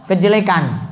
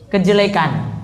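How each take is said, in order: The two takes are said the same way.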